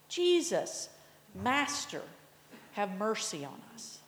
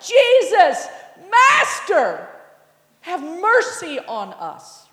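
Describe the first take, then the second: First: It is said in a calm, plain way. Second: It is said in a desperate, pleading way.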